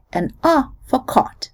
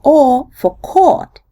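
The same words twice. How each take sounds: First: "caught" with an open ah, said like cot. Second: "caught" with a rounded aw vowel, slow; open O caught. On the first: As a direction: open the jaw on "caught", kaht. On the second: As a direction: round the lips on "caught", kawt. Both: Shown as a demonstration. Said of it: "In Eastern U S, there is a difference".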